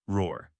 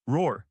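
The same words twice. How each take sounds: First: Deep low growling roar. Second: Short roar. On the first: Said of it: "let out a hoarse howl". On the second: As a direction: bark the roar out in one burst. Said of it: "Accompanied by a low roar". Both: Acted.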